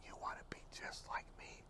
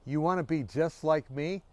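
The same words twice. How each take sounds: First: Very soft, voiceless whisper; incredulous question in a bare whisper. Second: Said in the usual way. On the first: Retold or imitated. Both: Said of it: "he began to whisper".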